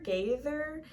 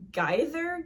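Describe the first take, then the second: First: Gaither said GAY-ther; second-guess pronunciation. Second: Gaither said GUY-ther; first-guess pronunciation. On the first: Vlogger trying another surname guess, Gaither as GAY-ther. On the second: Vlogger guessing an author's surname, Gaither as GUY-ther. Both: Shown as a demonstration.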